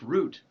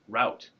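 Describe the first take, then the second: First: The vowel sounds like the one in boot. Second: The vowel sounds like the one in out. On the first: It is said the way people in another country say it. "if you pronounce them both root" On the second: It is said the way the speaker's own region says it. "the word that we say route"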